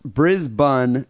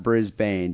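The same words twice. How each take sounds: First: Brisbane said as BRIZ-bun, with a weak second syllable; local pronunciation of Brisbane. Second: Brisbane said as BRIZ-bane, with a full long A; mistaken pronunciation of Brisbane. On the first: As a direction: say Brisbane slowly, ending in an unstressed "bun". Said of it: "It's pronounced Brisbane, not Brisbane". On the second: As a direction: say Brisbane slowly, ending in a clear "bane". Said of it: "not Brisbane, but that's a common mistake". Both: Shown as a demonstration.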